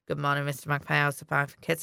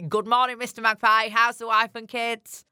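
First: The words are said in a whisper. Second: The words are said in a normal voice. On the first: People are around, so it is kept hidden. "I'll whisper it" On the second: No one else is around. "you salute it and say"

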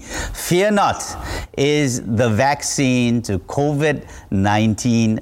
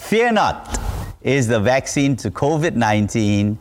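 First: It is said with ordinary, less lively energy. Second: It is said with more lively, enthusiastic energy. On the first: The speaker calls it wrong. "say it with me" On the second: The speaker calls it right. "sound a little bit more enthusiastic"

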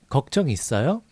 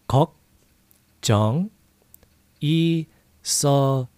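First: It is said fast. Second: It is said slowly.

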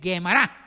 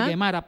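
First: The word is said in a careful, full form. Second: The word is said in a quick, casual form. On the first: This is the proper pronunciation. The speaker calls it right. "la propia pronunciación es Gemara" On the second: This is how it comes out in fast speech. The speaker calls it wrong. "cuando se habla rápido, se dice Gemara"

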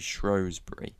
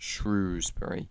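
First: The first syllable rhymes with 'shows'. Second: The first syllable rhymes with 'shoes'. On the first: It follows the town's historical name. The speaker calls it right. "which slowly evolved into Shrewsbury" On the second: It comes from reading the modern spelling. The speaker calls it wrong. "And not Shrewsbury"

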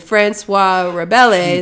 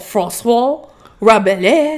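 First: The name is said with a plain English accent. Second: The name is said with a snooty French accent. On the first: The speaker calls it wrong. "I murdered it" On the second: The speaker calls it right. "make it sound real ignorant and like snooty"

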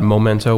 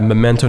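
First: The first syllable has a 'moh' vowel. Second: The first syllable has a 'meh' vowel. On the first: The speaker calls it wrong. "which is a very common mistake" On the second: The speaker calls it right. "Memento, not Momento"

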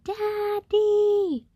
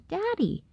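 First: It is yelled as loudly as possible. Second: It is said somewhat louder.

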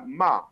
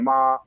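First: The syllable is said with a falling tone. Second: The syllable is said with the first tone. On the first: It expresses blame or scolding. "النغمة الرابعة الهابطة" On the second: It means mother. "نغمة أولى"

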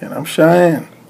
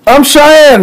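First: It is said flatly, with little energy. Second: It is said with lively, high energy.

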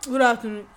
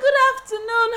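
First: It sounds curt and obviously angry. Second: It sounds falsely sweet and cheerful.

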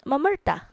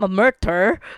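First: The name ends in a plain 'ah' vowel. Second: The name ends in an r-colored 'er' sound. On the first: The speaker calls it right. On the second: The speaker calls it wrong.

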